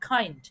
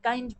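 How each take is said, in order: First: The k sound has a puff of air. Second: The k sound has no puff of air. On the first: The speaker calls it right. "কিন্তু উচ্চারণ হবে কাইন্ড" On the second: The speaker calls it wrong. "বাঙালি হিসেবে আমরা সবাই কাইন্ড করে থাকি"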